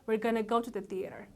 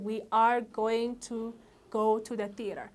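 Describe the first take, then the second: First: The words are contracted and linked together. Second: Every word is said fully and separately. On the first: The speaker calls it right. "ምን አልኩትኝ ግን" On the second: The speaker calls it wrong. "የነበረው ምንድን ነበር ... በጣም ረጅም ነው"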